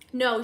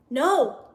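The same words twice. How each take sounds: First: Said in the usual way. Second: Slightly nervous, stressed "No". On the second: A narrator's reading. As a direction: give "No" a bit more force, uneasily. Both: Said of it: "she replied nervously".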